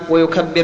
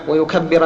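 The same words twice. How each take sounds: First: The final letter ends with no vowel. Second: The final letter carries a short vowel. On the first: The speaker calls it right. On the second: The speaker calls it wrong.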